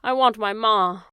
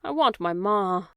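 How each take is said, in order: First: Loud, broken wail; the girl wails for her ma to the silent world; wailing cry. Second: Slow, pleading cry; a child crying for her mother, slowly. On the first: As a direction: let the want burst out of her. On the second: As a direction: draw it out as she starts to cry. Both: Acted. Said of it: "cried Meg".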